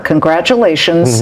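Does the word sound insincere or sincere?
insincere. It is said flatly, without sincerity. The speaker does not really mean it.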